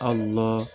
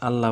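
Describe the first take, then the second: First: The l sound is heavy and thick. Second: The l sound is light and thin. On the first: The speaker calls it right. "পুর করিয়া মোটা করিয়া পড়িতে হবে" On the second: The speaker calls it wrong. "আল্লাহ বলা যাবে না"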